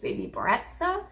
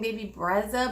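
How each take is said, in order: First: The name's middle consonant sounds like ts. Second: The name's middle consonant sounds like a plain z. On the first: The speaker calls it right. "but apparently I think it's baby Bretza" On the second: The speaker calls it wrong. "I was saying baby Brezza"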